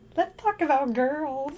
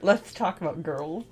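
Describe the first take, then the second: First: It is said in a high helium voice. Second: It is said in a normal voice.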